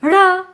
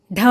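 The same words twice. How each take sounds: First: ढ़ as an aspirated retroflex flap; drawn-out flapped ढ़, not a hard stop; dotted ढ़. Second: ढ as a hard aspirated retroflex stop; aspirated d-sound ढ, tongue curled back; undotted ढ. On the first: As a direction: flick the curled tongue for an r-like ढ़. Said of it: "हमने इसका उच्चारण किया ढ़". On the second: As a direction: strike ढ like the start of ढक्कन. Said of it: "उच्चारण ही बदल के रख दिया". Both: Shown as a demonstration.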